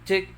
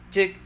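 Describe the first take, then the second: No difference in how they are said.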